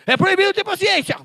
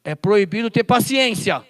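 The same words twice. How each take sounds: First: "É proibido ter paciência" jumps much higher, loud, peaking on "proibido"; much higher mock voice, loud. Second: "É proibido ter paciência" said loud at ordinary pitch, falling on "paciência"; loud mock decree at normal pitch; loud declaration. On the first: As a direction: ham it up as a silly squeaky official. Repeats ban, mocking higher. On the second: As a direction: state the mock ban firmly. First take of mock ban.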